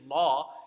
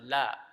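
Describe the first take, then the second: First: The lam is heavy, with a full mouth. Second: The lam is light, with an empty mouth. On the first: "where lam is going to be a full mouth" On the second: "instead of"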